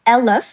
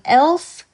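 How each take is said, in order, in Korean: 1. l과 f 사이에 짧은 모음을 넣어 발음해요. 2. l과 f는 사이에 모음 없이 발음해요. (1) "르, 으, 요거를 이제 추가를 해줘가지고" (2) "elf, twaalf라는 발음 말고도"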